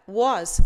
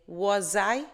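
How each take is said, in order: First: "Was," said alone, loud, with its final S; S ending. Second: "Was I?" run together with a Z sound, like "wo-zai"; Z linking sound. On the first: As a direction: punch "Was," as a single word ending in S. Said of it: "apesar do som de S". ("Was," com som de S no final) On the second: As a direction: link "Was" into "I?" with a buzzing Z. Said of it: "ele vai ter o som de Z". ("Was I?" com som de Z ligando as palavras) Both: Shown as a demonstration.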